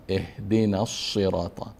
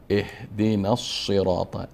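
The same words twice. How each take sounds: The two takes are said the same way.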